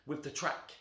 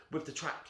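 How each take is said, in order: Both takes have the same delivery.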